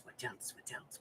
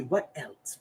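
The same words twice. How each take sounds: First: Unvoiced whisper, trailing off; fading whispered repetition; whispered musing. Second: Said in the usual way. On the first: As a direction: whisper it to yourself while thinking.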